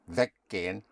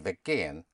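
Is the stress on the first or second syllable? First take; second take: first; second. First: The stress is on the first syllable. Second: The stress is on the second syllable. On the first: The speaker calls it right. "but weggehen" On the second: The speaker calls it wrong. "You don't say weggehen"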